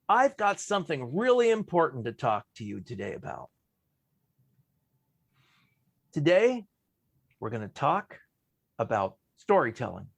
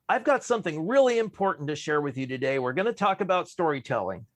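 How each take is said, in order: First: A long pause comes before the last sentence. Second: It runs straight on without a long pause.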